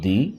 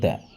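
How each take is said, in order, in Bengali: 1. শব্দটি 'ee' স্বরধ্বনি দিয়ে শেষ হয়। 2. শব্দটি 'uh' স্বরধ্বনি দিয়ে শেষ হয়। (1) "যদি আমরা ভাওয়াইল দেখি তখন সেক্ষেত্রে আমরা উচ্চারণ করব দি" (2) "আর যদি আমরা কনসোনেন্ট দেখি সেক্ষেত্রে আমরা উচ্চারণ করব দ্য"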